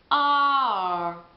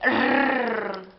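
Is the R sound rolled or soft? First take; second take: soft; rolled. First: The R is soft and barely heard. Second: The R is strongly rolled with a trill. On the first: The speaker calls it right. "è molto morbida, quindi la R quasi non si sente" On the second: The speaker calls it wrong. "non si dice rrr come noi in italiano"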